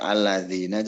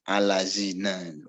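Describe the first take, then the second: First: The consonant is a voiced th-like sound. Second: The consonant is a plain z sound. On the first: The speaker calls it right. "ada orang baca baca alladzina" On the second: The speaker calls it wrong. "Zal dibaca zaid"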